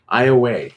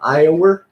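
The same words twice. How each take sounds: First: It is said in a local regional pronunciation. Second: It is said in a standard pronunciation.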